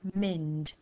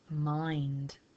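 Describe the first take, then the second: First: The vowel is a short i sound. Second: The vowel is a long i sound. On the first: The speaker calls it wrong. "Doesn't really sound right" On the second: The speaker calls it right. "So I think it sounds right when I say mind"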